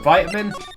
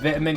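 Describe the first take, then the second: First: The word has a non-British pronunciation. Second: The word has the British pronunciation. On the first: "I know you all call it Vitamin" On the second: "that's how we pronounce it in the U K"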